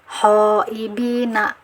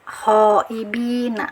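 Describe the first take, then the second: The two takes are said the same way.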